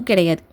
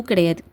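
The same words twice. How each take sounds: No difference in how they are said.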